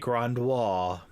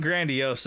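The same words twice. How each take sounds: First: It is said with a French-sounding pronunciation. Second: It is said with a plain English pronunciation. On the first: "it sounds nice and, I don't know, French or something" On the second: "I think grandiose is the proper pronunciation"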